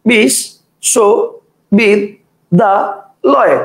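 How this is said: The word is broken into five separate chunks. "একজন বলবে বিশ, শো, বিদ, দা, লয়, কটা হলো? পাঁচটা।"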